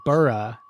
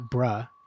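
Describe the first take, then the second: First: The ending is said with an added vowel. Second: The ending is said without an added vowel. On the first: "I still added like burra" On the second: "not bruh"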